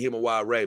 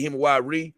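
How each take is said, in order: First: HIMA WARE with the last syllable as "ray"; own pronunciation. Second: HIMA WARE with the last syllable as "ree"; others' pronunciation. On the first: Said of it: "but I say Hima Ware". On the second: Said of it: "they may say Hima Ware". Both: Shown as a demonstration.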